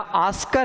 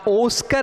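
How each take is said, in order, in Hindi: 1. पहला स्वर खुला 'aa' वाला है। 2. पहला स्वर गोल 'o' वाला है। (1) "ना ऑस्कर है" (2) "ना ओस्कर है"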